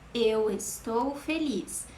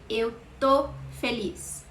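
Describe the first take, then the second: First: The verb is said in full as estou. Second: The verb is shortened to one syllable, tô. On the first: This is the grammatically correct form. "you have to write eu estou feliz" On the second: This is casual everyday speech. "an informal contraction for the verb estou"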